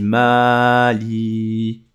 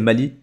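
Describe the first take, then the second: First: The first vowel is long. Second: The first vowel is short. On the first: The speaker calls it right. "J'ai bien prononcé longtemps" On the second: The speaker calls it wrong. "J'ai pas fait Mali"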